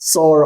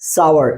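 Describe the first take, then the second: First: It is one syllable, like 'sor'. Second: It is two syllables, like 'sow-er'. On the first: The speaker calls it wrong. "অনেক সময় আমরা ভুল উচ্চারণ করি, সর বলি এটাকে" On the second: The speaker calls it right. "এটার আসল উচ্চারণ হবে সাওয়ার"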